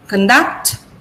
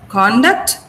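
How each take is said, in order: First: The stress is on the second syllable. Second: The stress is on the first syllable.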